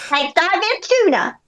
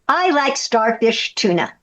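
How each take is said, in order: First: It is said in a put-on voice. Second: It is said in her natural voice.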